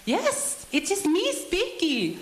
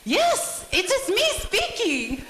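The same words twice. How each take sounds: First: Very high, slow mother-in-law impression; high-pitched voice. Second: Imitated annoyance, very high and slow; high-pitched mother-in-law losing patience, drawn out; getting annoyed. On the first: Mother-in-law answering a prank call, high-pitched voice. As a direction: imitate her answering in a drawn-out, high voice. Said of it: "Viva with her high-pitched voice". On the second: Mother-in-law answering the repeated question, imitated high-pitched annoyance. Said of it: "I could tell she was gonna get annoyed".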